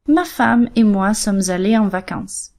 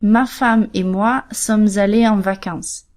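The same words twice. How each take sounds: First: Said in the usual way. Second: Slow, careful quote of a learner's error; slow learner's mistake. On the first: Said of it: "students that tell me". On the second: Shown as a demonstration. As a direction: spell out the typical mistake slowly. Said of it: "First mistake".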